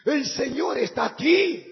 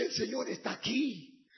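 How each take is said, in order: First: Shouted proclamation, louder. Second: Said in the usual way. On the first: Retold or imitated. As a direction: proclaim it at full voice. Repetición gritada. (proclamando a gritos)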